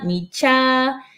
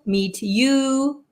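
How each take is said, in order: First: The t and y merge into a ch sound. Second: The t and the y stay separate sounds.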